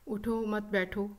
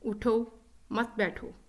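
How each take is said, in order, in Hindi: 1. यह बिना किसी विराम के, सपाट बोला जाता है। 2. दूसरे शब्द के बाद विराम है। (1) "अपने लहजे के उतार चढ़ाव के बगैर" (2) "it means I am asking the person to stand up"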